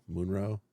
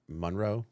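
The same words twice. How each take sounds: First: Munro with "moon" as the first syllable; "Munro" with an "oo" first vowel; tentative pronunciation. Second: Monroe with "mon" as the first syllable; "Monroe" with an open first vowel; tentative pronunciation. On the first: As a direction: try "Munro?" as MOON-roe, questioning. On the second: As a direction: try "Monroe?" as MON-roe, questioning. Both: Shown as a demonstration. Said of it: "put the right emphasis on the right syllable".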